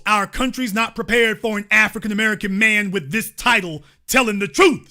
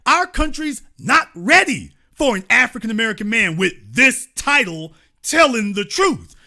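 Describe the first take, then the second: First: Said in the usual way. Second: "ready" and "truth" stressed, falling firmly; corrected quote. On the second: Shown as a demonstration. Host rereading the real quote, emphatic. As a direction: lay out the real words with weight. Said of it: "he didn't say".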